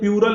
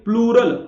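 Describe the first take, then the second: First: The word starts with 'pyu', without an L. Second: The word starts with 'plu', with an L. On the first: The speaker calls it wrong. "कई लोग इसको प्यूरल बोल देते हैं, ये प्यूरल नहीं होता" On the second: The speaker calls it right. "ये होता है प्लूरल"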